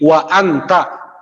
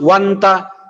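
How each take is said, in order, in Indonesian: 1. Hamzah memisahkan kedua kata itu. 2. Kedua kata itu menyambung, tanpa hamzah. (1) "tetapi wa anta" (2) "nggak bisa dibilang wanta"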